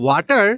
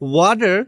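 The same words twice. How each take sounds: First: It is said in a South Asian accent. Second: It is said in an American accent. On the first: "this is the correct way in Bangladesh and Indian accent" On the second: "is the correct way in American accent"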